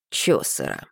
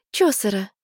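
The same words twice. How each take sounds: First: Much lower, dry amusement; deadpan male echo; dry deep repeat. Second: Said in the usual way. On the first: Acted. William repeats dryly. (низко и сухо)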